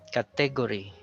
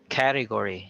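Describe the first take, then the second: First: The stress is on the second syllable. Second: The stress is on the first syllable. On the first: The speaker calls it wrong. "we stress on the second syllable, which is wrong" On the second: The speaker calls it right. "So the stress is on the first syllable"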